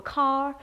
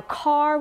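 First: "car" with the R dropped and vowel elongated; transatlantic vowel. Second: Said in the usual way. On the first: Shown as a demonstration. Linguist demonstrating the old Hollywood accent, "car" without its R. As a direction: say "car" as "cah", long open vowel, no final R. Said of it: "R's were dropped at the end of words and vowels were elongated".

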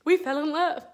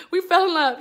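First: Said in the usual way. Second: "fell" lifted higher and louder, savoured; swooning emphasis. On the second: Acted. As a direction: say "We fell in love" again, dreamily emphatic.

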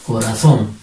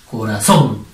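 First: Said in the usual way. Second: "Corazón" with a strong, drawn final -zón; stress on last syllable. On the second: Shown as a demonstration. Teacher shows pupils where the accent falls, stressing -zón in "Corazón". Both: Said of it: "Es donde ya la mayor fuerza de voz".

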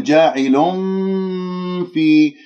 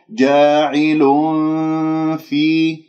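First: جاعل في with lips closed like a م; wrong ikhfa. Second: Hide the ن before في; correct ikhfa. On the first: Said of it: "هكذا خطأ". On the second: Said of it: "فانتبهوا". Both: Shown as a demonstration.

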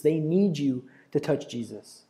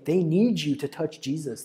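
First: Slower, each word weighted, stress on "need"; slow emphatic repeat. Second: Said in the usual way. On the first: Shown as a demonstration. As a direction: lean on "need" and let it sink in.

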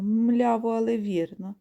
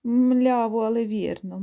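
First: Lightly voiced oxen echoing, rising at the end; lowing oxen. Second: A hint of slow oxen voices, first call louder; lightly voiced oxen, stress on але; lowing oxen. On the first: Oxen repeat their answer, lightly voiced. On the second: Plodding oxen lowing back at the geese, mild drawl. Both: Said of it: "задирають голови і мукають".

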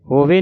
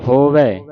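First: ਹੋਵੇ ending in closed "ay". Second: ਹੋਵੈ ending in open "ai". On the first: Teacher warning of a mistake, ਹੋਵੇ with closed e. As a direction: finish ਹੋਵੇ on a narrow e. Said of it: "ਨਹੀਂ ਕਹਿ ਦੇਣਾ". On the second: Teacher showing the right reading, ਹੋਵੈ with open ai. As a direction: finish ਹੋਵੈ wide, on ai. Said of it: "ਦਲਾਵਾਂ ਦੇ ਨਾਲ". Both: Shown as a demonstration.

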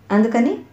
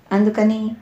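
First: అందుకని with a rising questioning end; questioning echo. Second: అందుకని said evenly, more to follow; unfinished explanation. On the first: Lady of the house prompting the servant, అందుకని as a rising question. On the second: Servant explaining to the lady of the house, అందుకని left hanging. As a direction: leave అందుకని hanging as a statement. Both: A narrator's reading.

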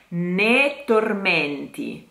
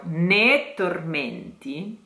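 First: "ne tormenti" slow, T doubled after ne; phrasal doubling. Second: "ne tormenti", short stop before the T; doubled T. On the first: Teacher slowly shows doubling in "ne tormenti". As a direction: hold a silence before the T in "ne tormenti". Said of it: "truncated ne". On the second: Teacher repeats "ne tormenti" with the doubled T. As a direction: let "ne" cut off before "tormenti". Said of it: "a moment of silence". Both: Shown as a demonstration.

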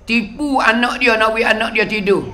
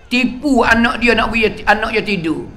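No difference in how they are said.

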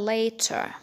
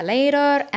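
First: "later" with a clear T; crisp T in "later", soft ending; British LATER. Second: "later" with the T as a light D; American LATER. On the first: Teacher showing British "later", clear-T pronunciation. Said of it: "في البريتش أكسنت هنقولها". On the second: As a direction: say "later" like "lader", R sounded. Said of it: "أمريكان أكسنت هنقولها". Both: Shown as a demonstration.

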